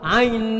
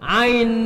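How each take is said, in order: First: The vowel is cut short, nasalized immediately. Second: The same.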